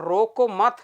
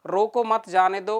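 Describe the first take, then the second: First: रोको मत said as one unit, then stop; pause after मत. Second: Short break after रोको, then मत जाने दो; pause after रोको. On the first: Teacher showing where to stop, pause after मत. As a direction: join रोको to मत and halt after मत. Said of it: "यहाँ रुके और फिर जाने दो". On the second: Teacher repeating the example for students, pause after रोको. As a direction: set रोको apart from मत जाने दो. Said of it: "तो वहाँ तो कह रहे हैं कि रोक दो". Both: Shown as a demonstration.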